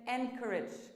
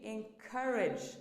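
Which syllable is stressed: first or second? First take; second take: first; second. First: The stress is on the first syllable. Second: The stress is on the second syllable. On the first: The speaker calls it wrong. "but that's wrong" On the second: The speaker calls it right. "the stress is on the second syllable, not the first"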